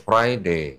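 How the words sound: It is said in a British accent.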